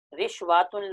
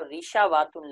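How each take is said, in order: First: رشواتن with no vowel after the sh; sh closing the first syllable of رشواتن; silent middle letter. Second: ریشاواتن with an "a" after the sh; extra open syllable "sha" in ریشاواتن; fatha on the middle letter. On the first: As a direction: say رشواتن as rish-waa-tun. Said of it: "عین کلمے کو ساکن پڑھنا". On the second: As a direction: say ریشاواتن as ri-sha-waa-tun. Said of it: "عین کلمے کو مفتوح پڑھنا". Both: Shown as a demonstration.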